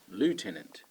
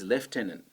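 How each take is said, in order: First: It is said with the North American pronunciation. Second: It is said with the British and Australian pronunciation. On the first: "if you're in America or Canada, you're going to pronounce this word" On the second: "the correct pronunciation in England and Australia is"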